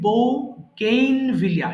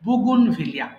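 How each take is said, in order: First: The word starts with separate 'bou' and 'gain' syllables. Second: The word starts with a short, run-together 'bugun'. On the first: The speaker calls it wrong. "এরকম হবে না" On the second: The speaker calls it right. "উচ্চারণ হবে বুগুন ভিলিয়া"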